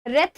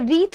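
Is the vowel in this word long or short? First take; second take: short; long. First: The vowel is a short 'e' sound. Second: The vowel is a long 'ee' sound. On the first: The speaker calls it wrong. "इसे रेथ नहीं बोला जाता है" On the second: The speaker calls it right. "इसे रीथ बोला जाता है"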